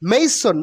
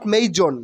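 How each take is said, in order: First: The middle consonant is an s sound. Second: The middle consonant is a z sound. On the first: The speaker calls it right. "মেইসন মেইসন not মেইজন" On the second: The speaker calls it wrong. "নট মেইজন"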